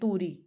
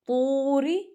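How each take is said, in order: First: The first vowel is cut short. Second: The first vowel is drawn out long. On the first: The speaker calls it wrong. "इसको तूरी नहीं पढ़ सकते" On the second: The speaker calls it right. "दो हरकत के बराबर खींच के पढ़ेंगे"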